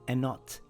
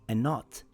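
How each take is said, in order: The two takes are said the same way.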